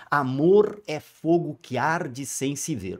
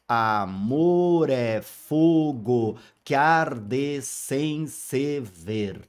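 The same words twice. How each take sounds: First: Said in the usual way. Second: Very slow, measured verse; slow syllable reading. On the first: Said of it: "nós vamos falar justamente sobre isso". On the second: Shown as a demonstration. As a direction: read the verse slowly, counting syllables. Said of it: "todos eles têm dez sílabas poéticas". (leitura bem lenta, contando sílabas)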